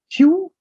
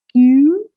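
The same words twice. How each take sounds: First: "Q" as plain English kyoo. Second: "Q" with a long French u, loud and high. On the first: Teacher showing the wrong French Q, English-style. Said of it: "I'm saying it's not Q". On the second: Teacher modelling the letter, French-style Q. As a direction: draw out "Q" from ee towards oo. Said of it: "Please note the special way". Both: Shown as a demonstration.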